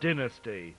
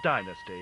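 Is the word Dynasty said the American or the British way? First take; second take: British; American. First: The word is said with a British pronunciation. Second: The word is said with an American pronunciation.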